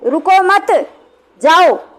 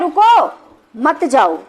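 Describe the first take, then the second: First: The pause comes after मत. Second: The pause comes after रुको.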